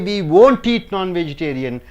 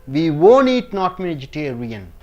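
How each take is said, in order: First: The T in 'won't' is clearly pronounced. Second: The T in 'won't' is dropped. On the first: The speaker calls it wrong. "You don't say" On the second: The speaker calls it right. "You pronounce as"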